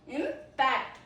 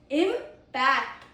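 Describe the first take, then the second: First: The stress is on the second syllable. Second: The stress is on the second syllable.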